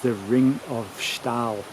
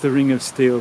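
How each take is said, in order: First: The last word has an 'ah' vowel, like stall. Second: The last word has an 'ee' vowel, like steel. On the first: This is the proper local way of saying it. The speaker calls it right. "its correct pronunciation is the Ring of Stahl" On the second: This is the common popular way of saying it. The speaker calls it wrong. "it's known as the Ring of Steel by most people"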